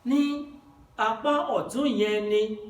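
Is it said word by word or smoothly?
word by word. Each word is said separately with breaks.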